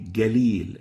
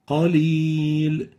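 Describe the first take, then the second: First: It begins with an English g sound. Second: It begins with a deep q sound. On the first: The speaker calls it wrong. "we use the English G. It will be Galil, and this is wrong" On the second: The speaker calls it right. "The right way of pronouncing the qaf here is like this"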